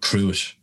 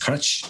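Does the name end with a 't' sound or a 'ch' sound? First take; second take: t sound; ch sound. First: The name ends with a plain 't' sound. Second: The name ends with a 'ch' sound. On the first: The speaker calls it wrong. "I was calling it Crute" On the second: The speaker calls it right. "it's crutch"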